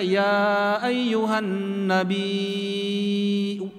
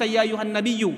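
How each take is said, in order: First: The last word has a lengthened vowel and glottal stop. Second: The last word has a doubled y sound. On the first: "hamzahnya kelihatan, jadi mad wajib muttasil" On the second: "Ditasydid ya-nya"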